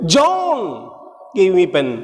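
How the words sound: The stress is on John.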